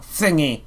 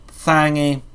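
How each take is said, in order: First: "Thingy" said normally, short i; plain thingy. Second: "Thangy" with a broad a, louder; drawled thangy. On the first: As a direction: say "Thingy" with a clear i. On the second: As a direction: stretch "Thangy" into a twangy a. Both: Shown as a demonstration.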